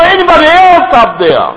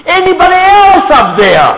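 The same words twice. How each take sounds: First: High, loud call upward, asking for someone else; hammed-up shout upward for someone else; cheeky shout. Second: High, loud call upward, asking for someone else; cheeky shout. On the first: Preacher repeats the punchline, the man calling upward. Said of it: "他说". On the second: Retold or imitated. Man on the branch rejects God and calls upward again. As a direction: shout upward, looking for a better answer. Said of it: "然后他说什么".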